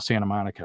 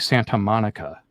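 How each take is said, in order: First: The T in Santa is dropped, like an N. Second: The T in Santa is clearly pronounced. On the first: "you don't even hear the T when I say Santa Monica" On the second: "We don't say Santa Monica"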